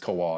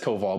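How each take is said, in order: First: The middle consonant sounds like a W. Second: The middle consonant sounds like a V. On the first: It is how most people say it. "but obviously everyone says Kowal" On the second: It is the proper Polish pronunciation. "yeah, it is Koval"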